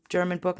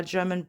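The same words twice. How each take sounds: First: German accent. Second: Said in the usual way. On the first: Shown as a demonstration. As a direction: playfully say "German book" the German way. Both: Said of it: "Now I'm saying it with the accent".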